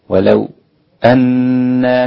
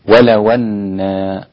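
First: A brief pause comes before the glottal stop. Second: The glottal stop drops and its vowel joins walaw. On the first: "الوقف أو السكت على الساكن المفصول هكذا" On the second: "قرأ بالنقل، نقل حركة الهمزة إلى الساكن قبلها"

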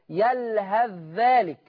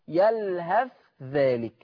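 First: The th sound merges fully into the dh. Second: The th sound is pronounced clearly before dh. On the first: "ان احنا هندخل الثاء في الذال" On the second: "ورش يظهر"

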